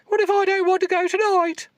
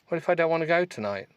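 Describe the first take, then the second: First: It is read in a put-on accent. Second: It is read in the reader's plain voice.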